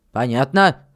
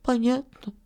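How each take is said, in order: First: Low, firm check with a rise at the end; firm questioning "Понятно?"; stern miller's question. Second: Small, high, dejected reply; deflated boy's voice, pitched up; crestfallen. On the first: Acted. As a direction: make sure the boy has understood. Miller checks the boy understood. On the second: A narrator's reading. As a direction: answer meekly, spirits sunk. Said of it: "ответил упавшим голосом Филька".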